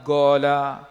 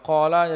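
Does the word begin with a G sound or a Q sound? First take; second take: G sound; Q sound. First: It begins with a hard G sound. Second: It begins with a deep throat Q sound. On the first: "kalau qaf jadi ga, lahjah depa lagu tu" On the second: "kalau qaf jadi ga"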